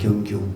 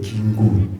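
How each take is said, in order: First: The name is said with full gyeong-gyu sounds. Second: The name is said with simplified gin-gu sounds. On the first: The speaker calls it right. "제 이름이 경규거든요" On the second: The speaker calls it wrong. "경규 발음을 잘 못해요. 여기서 뭐라 그러냐면 긴구 그래요"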